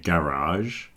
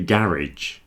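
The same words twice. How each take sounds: First: It ends with a soft French sound, American-style. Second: It ends with a hard 'ij' sound, British-style.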